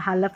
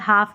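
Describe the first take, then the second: First: The word is said with an L sound. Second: The word is said without an L sound. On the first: The speaker calls it wrong. "हालफ नहीं पढ़ेंगे" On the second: The speaker calls it right. "इसको भी हाफ करके पढ़ेंगे"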